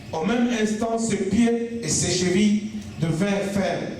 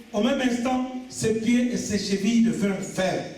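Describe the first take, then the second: The two takes are said the same way.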